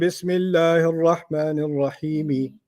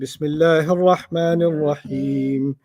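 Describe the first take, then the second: First: The last word ends with an added vowel. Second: The last word ends on the m sound. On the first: "there's an E here. How come you didn't say" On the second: "Then you stopped at the M"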